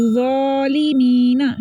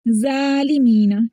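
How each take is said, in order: First: ज़ालिमीना with thick Z and rounded "zaw", held; heavy correct reading. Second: ज़ालिमीना with light Z and open "zaa"; thin the Z in ज़ालिमीना; thin wrong reading. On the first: Teacher giving learners the right reading, heavy "zawlimeena". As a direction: fill the mouth on slow ज़ालिमीना. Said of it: "मोटा ही read करें". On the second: Teacher showing the error, light "zaalimeena". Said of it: "ज़ालिमीना पढ़ेंगे तो ये दूसरी ज़ा". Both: Shown as a demonstration.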